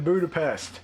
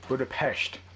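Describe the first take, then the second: First: The word ends with a plain s sound. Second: The word ends with an sh sound. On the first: The speaker calls it wrong. "Hawkeye's been pronouncing it wrong the whole time" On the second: The speaker calls it right.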